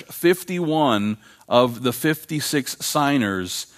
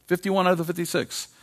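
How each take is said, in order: First: Said in the usual way. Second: "Fifty-one" and "out" pitched high, pressed home; emphatic repeat. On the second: Real, not acted. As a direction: repeat the numbers high as the punchline.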